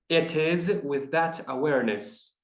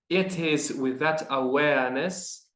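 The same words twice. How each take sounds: First: Awareness has an American r sound. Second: Awareness drops the r, Mid-Atlantic style.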